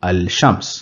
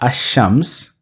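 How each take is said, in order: First: The article is said with a clear l sound. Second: The l merges into a doubled sh sound. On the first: The speaker calls it wrong. "rather than saying Al-Shams" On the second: The speaker calls it right. "we will say Ash-Shams"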